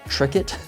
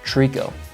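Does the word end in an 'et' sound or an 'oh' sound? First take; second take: et; oh. First: The word ends with an 'et' sound. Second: The word ends with an 'oh' sound. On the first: The speaker calls it wrong. "I mispronounced a word" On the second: The speaker calls it right. "it's actually pronounced tricot"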